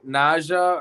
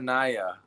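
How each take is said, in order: First: The middle consonant is a J sound. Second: The middle consonant is a Y sound.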